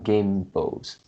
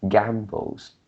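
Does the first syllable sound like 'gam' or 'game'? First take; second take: game; gam. First: The first syllable sounds like 'game'. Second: The first syllable sounds like 'gam'. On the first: The speaker calls it wrong. "It's not gambles" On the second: The speaker calls it right. "maybe it is more like gambles"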